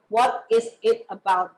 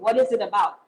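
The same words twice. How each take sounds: First: Each word is pronounced separately and clearly. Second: The words run together quickly and smoothly. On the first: "we try to enan- enunciate our word" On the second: "you can speak like British or American people"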